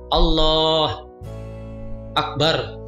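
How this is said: There is a pause between the two words. The speaker calls it wrong.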